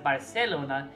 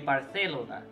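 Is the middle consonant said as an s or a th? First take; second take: s; th. First: The middle consonant is an s sound. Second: The middle consonant is a th sound. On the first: This is the Latin American pronunciation. The speaker calls it wrong. "You wouldn't pronounce it Barcelona" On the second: This is the European Spanish pronunciation. The speaker calls it right. "it would be Barcelona"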